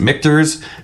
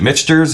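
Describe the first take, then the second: First: The name sounds like mick-tors, without an s. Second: The name sounds like the word mixtures. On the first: The speaker calls it right. "we figured out it, it's mictors" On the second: The speaker calls it wrong. "is it mixtures?"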